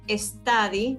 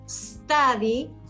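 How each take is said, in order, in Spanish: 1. Hay un sonido e extra antes de la s. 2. La palabra empieza directamente con el sonido s. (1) "este es un error súper común, no se dice study" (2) "la E las omitimos, dicen study"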